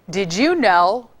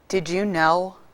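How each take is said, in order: First: It is said in a sarcastic tone. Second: It is said in a sad tone. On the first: "How about if I give it to you, um, sarcastic?" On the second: "Let me give it to you, sad"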